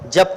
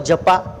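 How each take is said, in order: First: The word ends on the consonant p. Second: The word ends with an added vowel a. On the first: The speaker calls it right. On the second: The speaker calls it wrong.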